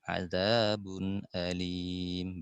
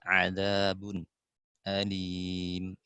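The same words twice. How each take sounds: First: The hamza is pronounced fully with a glottal catch. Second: A brief silent pause comes before the hamza. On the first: "Kemudian tahqiq" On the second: "terakhir saktah"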